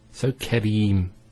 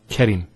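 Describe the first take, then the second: First: The second vowel is held long. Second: The second vowel is cut short. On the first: The speaker calls it right. "followed by the ya" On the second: The speaker calls it wrong.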